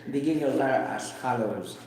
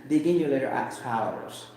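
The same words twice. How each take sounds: Both takes have the same delivery.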